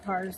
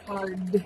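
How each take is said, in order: First: "cards" with the d dropped, sounding like cars; slurred slip. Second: "cards" with a clear d before the s; corrected pronunciation. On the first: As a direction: let "cards" lose its d. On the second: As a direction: repeat "cards" on its own, sounding the d. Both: Real, not acted. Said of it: "cards, not cars".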